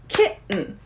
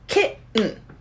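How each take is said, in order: First: The word keeps two syllables. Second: The word keeps two syllables.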